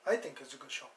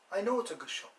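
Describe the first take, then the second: First: "I think" said lower, as a tentative opinion; stress on think. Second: "know" lifted higher, as the firm correction; stress on know. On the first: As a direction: say "I think" modestly, before the correction. Corrects himself, think versus know. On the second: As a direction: punch "know" with higher pitch. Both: Acted.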